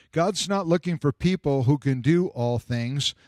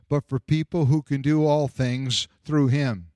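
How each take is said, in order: First: "not" pressed and lifted; stress on not. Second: "who" given the weight; stress on who. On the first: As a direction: lean on "not" as the point of the contrast. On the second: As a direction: answer the contrast by hitting "who". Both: Shown as a demonstration.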